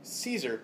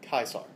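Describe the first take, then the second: First: The word begins with a soft S sound. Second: The word begins with a hard K sound. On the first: This is the usual English pronunciation. "which we in English usually pronounce" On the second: This is how the man himself said it. "the man himself would have pronounced"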